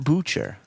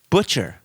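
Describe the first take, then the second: First: The first syllable rhymes with boots. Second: The first syllable rhymes with butch. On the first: The speaker calls it wrong. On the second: The speaker calls it right. "It rhymes with butch"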